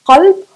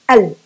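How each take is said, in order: First: It starts with a deep q sound. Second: It starts with a glottal stop.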